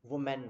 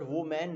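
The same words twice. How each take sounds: First: वुमेन run together as WU-men; correct singular. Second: वो मैन as two words, WOH MAN; spelling pronunciation. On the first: Teacher correcting the class, वुमेन as one word, WU-men. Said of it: "वुमेन बोलते हैं". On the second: Teacher showing the mistake, वो मैन read as WOH-MAN. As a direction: stretch वो मैन into "woh maan". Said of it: "वो मैन नहीं बोलते हम". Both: Shown as a demonstration.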